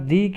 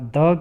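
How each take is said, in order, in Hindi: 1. यह शब्द लंबे 'ee' स्वर पर खत्म होता है। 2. यह शब्द छोटे 'uh' स्वर पर खत्म होता है। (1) "मैंने यहाँ दी क्यों बोला" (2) "द क्यों नहीं बोला"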